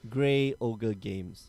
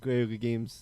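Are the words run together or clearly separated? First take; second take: clearly separated; run together. First: Each word is clearly separated and articulated. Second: The first two words are slurred together. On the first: The speaker calls it right. "got to enunciate it" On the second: The speaker calls it wrong. "I go Grogu Games"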